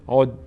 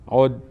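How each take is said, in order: The two takes are said the same way.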